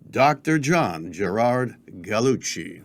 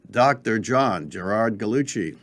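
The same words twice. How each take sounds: First: The name rolls out lively and expressive. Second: The name is said low and flat.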